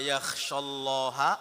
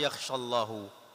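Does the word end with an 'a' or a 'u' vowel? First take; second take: a; u. First: The word ends with an 'a' vowel. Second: The word ends with a 'u' vowel.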